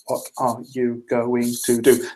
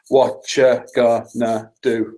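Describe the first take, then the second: First: Every word is said separately, seven syllables. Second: Words are squeezed together into five syllables. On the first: "Seven syllables"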